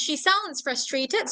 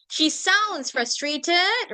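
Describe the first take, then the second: First: Slow model answer. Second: Drawn out, word by word; very slow model answer. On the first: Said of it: "so this is". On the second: Teacher dictating a model answer, very slow. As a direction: dictate it slowly to the class. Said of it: "should include this". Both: Shown as a demonstration.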